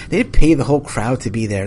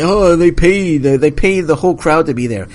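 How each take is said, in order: First: Said in the usual way. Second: Higher, louder mock voice of social media critics. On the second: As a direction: parrot the online crowd with scorn. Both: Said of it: "People say".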